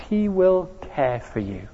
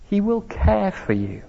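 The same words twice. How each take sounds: First: Hushed, gentle promise; tenderly, softer still. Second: Soft, gentle reassurance; tender. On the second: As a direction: say it tenderly, leaning on will. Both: Shown as a demonstration. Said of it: "Can you sense the tenderness".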